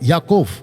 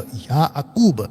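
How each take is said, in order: First: The name ends with an f sound. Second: The name ends with a b sound. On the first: This is how Israelis say it today. "जो इजरायली आज भी बोलते वो बुलाते याकोफ" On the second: This is the correct original pronunciation. "उसका सही प्रोनाउंसिएशन है या अकूब"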